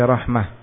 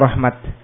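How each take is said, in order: First: The word ends with an h sound. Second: The word ends with a t sound. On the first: "Rahmatun dibaca rahmah" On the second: "diwaqafkan dengan ta"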